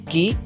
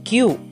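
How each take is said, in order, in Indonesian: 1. Huruf itu mendapat nama Indonesianya. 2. Huruf itu mendapat nama bergaya Inggris. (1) "seharusnya disebut" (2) "sering disebut"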